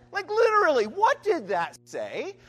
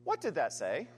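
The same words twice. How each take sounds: First: Exasperated loud quiz. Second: Said in the usual way. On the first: Shown as a demonstration. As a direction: demand the answer like a baffled professor. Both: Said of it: "the professor in me now wants to give you all the quiz".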